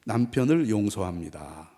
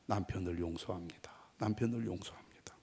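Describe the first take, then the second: First: Slow, measured declaration; drawn-out lead-and-repeat line; lead for repetition. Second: Very soft, low murmur; hushed private repetition; inner confession. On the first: Shown as a demonstration. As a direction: say it slowly for the wives to repeat. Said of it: "여자들 먼저 따라서 합시죠". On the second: Retold or imitated. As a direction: say it under the breath, as if only in the heart. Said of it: "마음속으로 계속 말했습니다".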